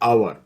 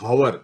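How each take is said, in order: First: The word begins with no h sound. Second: The word begins with an audible h sound. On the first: The speaker calls it right. "we call it hour" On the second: The speaker calls it wrong. "We don't call it hour"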